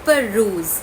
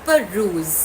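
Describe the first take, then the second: The two takes are said the same way.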